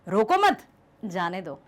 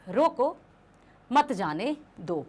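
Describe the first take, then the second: First: The pause comes right after 'mat'. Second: The pause comes right after 'roko'. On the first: Do not stop the person; let them go. "यदि वही अल्पविराम मैं यहां लगा दूं" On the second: Stop the person and do not let them go. "जहां रोको के बाद था"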